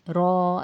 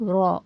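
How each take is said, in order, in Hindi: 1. स्वर खिंचा हुआ लंबा है। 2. स्वर छोटा है, एक मात्रा। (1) "रॉ ऐसा नहीं खींचेंगे" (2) "सिर्फ रॉ इतना ही पढ़ेंगे"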